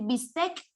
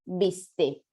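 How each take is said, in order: First: "bistec" with a hard final K; foreign form, final K. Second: "bistec" said as bis-TÉ, ending on the vowel; castellanized, no final K. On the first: Teacher showing the word before castellanization, "bistec" with final K. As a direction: sound the closing consonant of "bistec". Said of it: "En vez de decir". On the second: Teacher showing the castellanized word, "bistec" without its final K. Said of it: "mutilar las últimas consonantes". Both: Shown as a demonstration.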